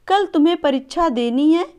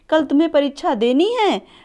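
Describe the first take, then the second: First: It is said as a plain statement. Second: It is said with question intonation. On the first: It states that the exam is tomorrow. "ये एक साधारण वाक्य है।" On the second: It asks whether the exam is tomorrow. "Expression के साथ बोल रहे हैं ... ये एक क्वेश्चन वर्ड हो जा रहा है।"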